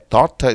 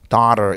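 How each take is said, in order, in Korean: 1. 미국식이 아닌 방식으로 말합니다. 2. 미국식으로 말합니다. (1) "미국 사람들은요 말을 할 때 daughter 이렇게 발음 안 하고" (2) "daughter 이렇게 발음하는"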